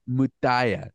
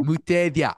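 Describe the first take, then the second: First: Mutaya said as moo-TAH-ya, missing the v; the host stumbles on the guest's surname, saying Mutaya; mispronounced name. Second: Mutevia said carefully as moo-teh-VEE-ya; corrected name. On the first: Host welcoming his guest tries her surname as Mutaya. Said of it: "Did I say that right?". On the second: Host corrected by his guest repeats Mutevia carefully. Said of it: "I'm sorry". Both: Real, not acted.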